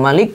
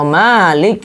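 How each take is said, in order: First: The vowel after the m is short. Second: The vowel after the m is long. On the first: The one who rules as king. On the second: The one who owns.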